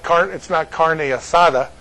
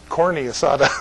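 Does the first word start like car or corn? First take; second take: car; corn. First: The first word starts with a car sound. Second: The first word starts with a corn sound. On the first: The speaker calls it right. "it's not carne asada for Marie" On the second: The speaker calls it wrong. "It's corny asada"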